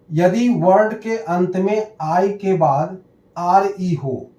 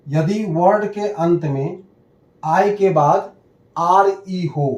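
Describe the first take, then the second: No difference in how they are said.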